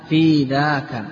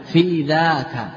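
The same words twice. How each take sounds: The two takes are said the same way.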